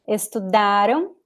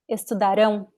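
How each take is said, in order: First: The stress falls on the second-to-last syllable. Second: The stress falls on the last syllable. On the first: The action happened in the past. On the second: The action will happen in the future.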